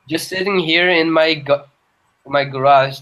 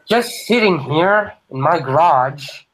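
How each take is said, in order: First: It is read in a plain, normal voice. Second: It is said in a put-on Joker voice.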